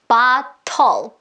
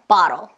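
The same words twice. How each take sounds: First: A clear vowel is sounded before the final L. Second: No vowel is sounded before the final L. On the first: The speaker calls it wrong. "bottle, bottle 이러지 않고" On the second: The speaker calls it right. "T가 플랫 처리돼서 bottle, bottle, bottle 이렇게 소리 낼 수 있는 거죠"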